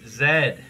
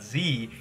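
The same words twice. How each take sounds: First: The letter is said the Canadian way, 'zed'. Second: The letter is said the American way, 'zee'.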